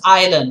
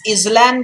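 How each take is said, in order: First: The S sound is silent in the word. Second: An S sound is pronounced in the word. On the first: The speaker calls it right. "that's island, right?" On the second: The speaker calls it wrong. "Is this island, guys? No"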